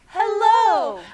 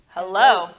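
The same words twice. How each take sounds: First: It is said in a nice tone. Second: It is said in a serious tone.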